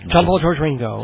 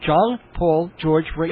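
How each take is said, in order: First: The names are said quickly, run together. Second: The names are said slowly as separate words. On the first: It is all one title. The speaker calls it right. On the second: They are four separate names. The speaker calls it wrong.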